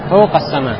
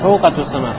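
First: It is said without a 'tu' syllable. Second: It is said with a 'tu' syllable. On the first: The speaker calls it right. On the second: The speaker calls it wrong.

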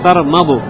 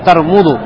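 First: The vowel after the m is 'a'. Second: The vowel after the m is 'u'. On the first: The speaker calls it right. "Правильно сказать тармаду с фатхой над мим" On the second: The speaker calls it wrong. "В некоторых приходит тармуду с дамой над мим"

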